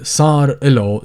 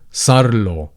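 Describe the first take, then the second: First: The vowel between the R and L is pronounced. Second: The vowel is dropped, joining R and L.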